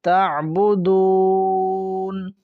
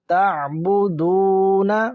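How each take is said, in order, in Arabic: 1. تنتهي الكلمة بصوت ساكن. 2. تنتهي الكلمة بحركة قصيرة.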